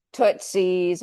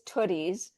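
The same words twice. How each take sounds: First: Tootsies, with a ts sound before the final s; wrong name. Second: Tooties, plain t with no s before the ending; correct name. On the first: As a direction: says Tootsies, the common mistaken form. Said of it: "Did I pronounce it correctly?". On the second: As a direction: says Tooties the right way, no ts. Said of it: "but it's Tooties". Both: Shown as a demonstration.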